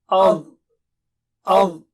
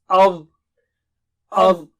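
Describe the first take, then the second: Both takes have the same delivery.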